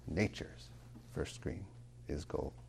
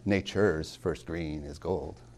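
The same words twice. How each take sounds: First: Nature's is stressed on its first syllable. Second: Nature's is stressed on its second syllable. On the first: The speaker calls it right. "Nature's, that's a trochee" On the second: The speaker calls it wrong. "It's not"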